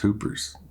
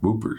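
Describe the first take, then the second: First: The word begins with an h sound. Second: The word begins with a w sound. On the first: "I think I say hoopers" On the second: "do you say Whooper or Hooper?"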